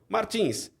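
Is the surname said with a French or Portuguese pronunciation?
Portuguese. The surname is said with a Portuguese pronunciation. It is the familiar local form of the name. The speaker calls it right. "Então é Vitor Martins"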